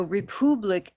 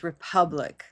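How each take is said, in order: First: "republic" said "re-POO-blik"; wrong blue vowel. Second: Said in the usual way. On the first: Shown as a demonstration. Teacher contrasting two vowels for learners, "republic" as re-POO-blik. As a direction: make the middle of "republic" a long "oo". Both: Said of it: "republic is not the same as republic".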